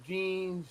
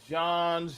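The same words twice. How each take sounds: First: Jean said "zheen", with a long ee; variant name pronunciation. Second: Jean said "zhahn", with an open ah; variant name pronunciation. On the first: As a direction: say Jean to rhyme with "seen". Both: Shown as a demonstration. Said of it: "fourteen different connotations of that one name".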